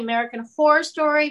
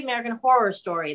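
First: "Horror" run together like "hore"; horror as one syllable. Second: "Horror" with both Rs sounded, "hor-ror"; horror as two syllables. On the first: Guest comparing how she says the show's title, "Horror" squashed to one syllable. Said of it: "it's sort of the same". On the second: Guest comparing how she says the show's title, "Horror" in two syllables. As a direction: give "Horror" its second syllable. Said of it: "it's just one R versus two". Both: Shown as a demonstration.

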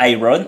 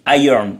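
First: Iron said the French way, ee-RON, every letter sounded; French-style iron. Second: Iron said as EYE-ern, the O barely heard; English iron. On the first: Dad showing the wrong French way to say iron. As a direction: say iron as a French reader would, rolled R and full O. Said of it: "on dit pas iron". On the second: Dad repeating his son's correct English iron. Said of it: "Mon fils, il me dit". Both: Shown as a demonstration.

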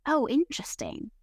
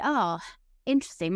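First: Lightly imitating teacher. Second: Mock curious. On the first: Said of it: "Tommy says it as well". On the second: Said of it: "My teacher always kinda say".

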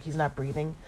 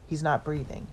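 First: BREATHING lifted at the end as a question; retold question. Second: Said in the usual way. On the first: Son questions the news on the phone, rising on BREATHING. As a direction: echo it back, rising on BREATHING. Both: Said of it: "And Patrick's like".

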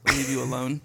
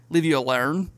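First: Said in the usual way. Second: Put-on Australian accent. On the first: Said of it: "is leave you alone". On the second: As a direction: say "alone" like "alern", imitating Australians. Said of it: "every vowel has a".

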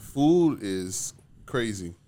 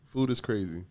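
First: Food is crazy stretched out slowly; slow emphasis. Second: Said in the usual way. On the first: Real, not acted. Stressing how pricey food is.

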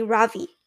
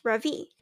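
First: "Ravi" with the stress pushed onto the first syllable RA; American stress. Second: "Ravi" with a soft ra and a strong V; correct pronunciation. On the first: Boy imitating how Americans say his name, first syllable stressed. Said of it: "with a stress on the first syllable". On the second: Boy showing the right way to say his name, soft ra. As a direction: say "Ravi" with a gentle ra and a firm V. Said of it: "with a soft ra and a strong V". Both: Shown as a demonstration.

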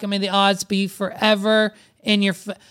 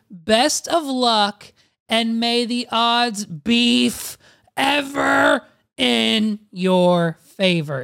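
First: Said in the usual way. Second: Slow, grand, ending in a shout; dramatic announcer. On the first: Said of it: "restarts the line". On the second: Shown as a demonstration. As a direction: proclaim it like a tournament host. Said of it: "is what the website says".

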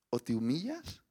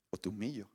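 First: Said in the usual way. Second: Soft, falling close. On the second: Shown as a demonstration. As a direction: drop to a hush on "humillo". (susurrando "o te humillo" con voz suave y grave) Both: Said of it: "Jesús nos está haciendo esta invitación".

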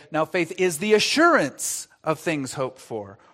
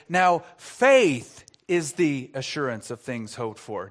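First: "assurance" given the main weight; stress on assurance. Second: "faith" punched as the key word; stress on faith. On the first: Preacher demonstrating another emphasis, stress on "assurance". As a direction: land on "assurance". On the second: Preacher demonstrating a third emphasis, stress on "faith". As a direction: hit "faith" hard. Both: Shown as a demonstration. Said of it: "Or would you say".

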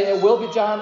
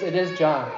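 First: "will" stressed as the rejected wording. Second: "is" punched, settling it as fact; stress on IS. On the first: Preacher contrasting wordings for the congregation, stress on "will". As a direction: lean on "will" in "It will be John". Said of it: "he doesn't say". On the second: Preacher giving the angel's wording as settled, stress on "is". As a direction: hit "is" firmly in "It is John". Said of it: "He says". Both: Shown as a demonstration.

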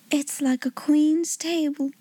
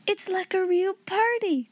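First: Slow, dreamy sigh of wonder; awed sigh. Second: High, excited exclamation; delighted cry. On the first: Becky gazing at the splendid feast, awed sigh. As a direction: sigh it slowly and admiringly. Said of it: "sighed Becky". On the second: Ermengarde delighted by the feast, delighted cry. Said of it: "cried Ermengarde". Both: A narrator's reading.

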